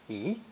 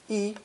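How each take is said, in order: First: The pitch rises from middle to high. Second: The pitch stays high and level. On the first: It comes before a fourth tone syllable. "before another fourth tone, it changes to second tone" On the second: It is used when counting. "when counting has a first tone"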